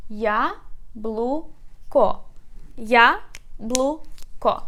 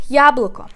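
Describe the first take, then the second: First: "Я, блу, ко" in three separate beats with pauses; syllable by syllable. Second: "яблоко" as one word, loud on я; stress on first syllable. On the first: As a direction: break it apart as "Я... блу... ко", each syllable alone. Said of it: "Let's divide it into syllables". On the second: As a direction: say "яблоко" whole, hitting the я. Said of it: "We put stress on the first syllable". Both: Shown as a demonstration.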